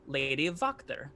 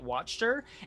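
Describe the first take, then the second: First: The name is said with an Eastern European sound. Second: The name is said like the English word. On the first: This is the form the fan community insists on. The speaker calls it right. "insists very, very directly that her name is pronounced Lady Wachter" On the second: This is the form some other groups use. The speaker calls it wrong. "I've actually heard of some campaigns pronouncing it Watcher"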